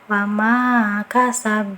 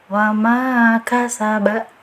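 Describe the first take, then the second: First: The final consonant is bounced without a vowel. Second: The final consonant is followed by an a vowel. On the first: The speaker calls it right. "harusnya kan kita pantulkan" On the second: The speaker calls it wrong. "yang keliru bacanya"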